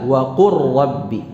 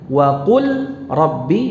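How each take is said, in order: First: The l sound merges into the r. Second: The l sound is kept before the r. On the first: This is how it is actually recited. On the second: This is how it is written.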